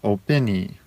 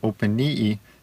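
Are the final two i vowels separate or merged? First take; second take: merged; separate. First: The two final i vowels merge into one. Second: The two final i vowels are said separately. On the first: The speaker calls it wrong. "if you change the two i's and you smush them together" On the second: The speaker calls it right. "the accent changes from openii"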